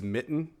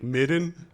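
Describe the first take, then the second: First: The middle consonant is a crisp t sound. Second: The middle consonant is a soft d-like sound. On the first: The speaker calls it right. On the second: The speaker calls it wrong.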